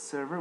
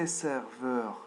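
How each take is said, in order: First: The word ends with an English 'er' sound. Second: The word ends with a French 'eur' sound. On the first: The speaker calls it right. "It's server with E R in the end" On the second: The speaker calls it wrong. "Don't say serveur"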